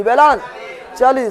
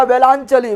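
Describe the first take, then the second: First: वेलांचली slowly, broken as वेलां… चली; drawn-out drill. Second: Said in the usual way. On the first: Shown as a demonstration. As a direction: stretch and split वेलांचली for the class to echo. Teacher splits term for class.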